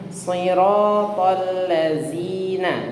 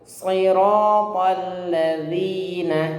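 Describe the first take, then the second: First: The second word starts with a z sound. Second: The second word starts with a dh sound. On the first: The speaker calls it wrong. "Jangan ... ini salah, huruf zai" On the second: The speaker calls it right. "Yang betul zal"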